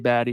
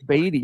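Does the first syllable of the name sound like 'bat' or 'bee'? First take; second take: bat; bee. First: The first syllable sounds like 'bat'. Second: The first syllable sounds like 'bee'. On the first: The speaker calls it wrong. "I screw up sometimes and say Batty" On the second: The speaker calls it right. "I'm pretty sure it's Beatty"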